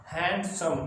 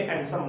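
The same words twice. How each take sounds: First: handsome broken into hand and सम; split in two pieces. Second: handsome run together without a break; said as one unit. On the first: Teacher showing students two syllables, handsome split in two. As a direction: say handsome in two separate syllables, a small break before सम. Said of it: "दो टुकड़े हो गए". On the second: Teacher showing students what can't be one syllable, handsome run together. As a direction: say handsome quickly in one piece. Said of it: "handsome को हम ऐसे नहीं बोल सकते". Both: Shown as a demonstration.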